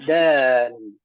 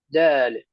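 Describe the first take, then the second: First: The word is said slowly, final sound full. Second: The word is said quickly, final sound clipped. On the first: The speaker calls it right. "إذا قرأنا ببطء وبتأني وتؤدة نقول دال" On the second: The speaker calls it wrong. "بسبب السرعة نقول دال"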